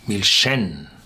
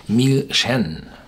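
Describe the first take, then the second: First: The stress is on the last syllable. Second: The stress is on the last syllable.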